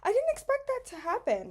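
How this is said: It is said in a surprised tone.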